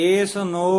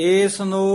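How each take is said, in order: The two takes are said the same way.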